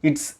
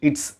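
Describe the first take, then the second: The two takes are said the same way.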